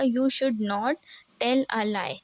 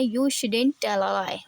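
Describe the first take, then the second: First: Should not is said as two full words. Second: Should not is contracted into one word. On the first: "शुड नॉट मैंने यहाँ full form में लिखा है" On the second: "आप इसे स्पीकली बोलना चाहते हैं"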